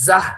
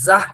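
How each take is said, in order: First: The consonant is breathy and aspirated. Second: The same.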